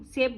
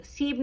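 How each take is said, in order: First: सेब with an "ay" vowel; correct pronunciation. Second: सीब with a long "ee" vowel; mispronunciation demo. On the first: Teacher showing what we do say, सेब with "ay". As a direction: say सेब with "e", not "ee". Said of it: "सेब बोलते हैं ना". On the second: Teacher showing what we don't say, सीब with "ee". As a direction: say the wrong form सीब, with "ee". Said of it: "सीब नहीं बोलते ना हम". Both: Shown as a demonstration.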